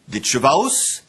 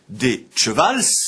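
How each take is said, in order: First: The word ends with an a-o glide. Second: The word ends with an l and s. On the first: This is the form after l turned into u. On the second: This is the oldest plural form. "On disait donc d'abord"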